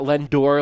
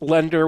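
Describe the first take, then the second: First: The word ends with a full 'or' sound. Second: The word ends with a weak 'er' sound. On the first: The speaker calls it wrong. "not Lendor, like Brian keeps pronouncing it" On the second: The speaker calls it right. "it's lender with an E"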